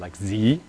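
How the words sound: The letter Z is said the American way.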